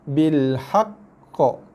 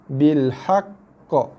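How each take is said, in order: No difference in how they are said.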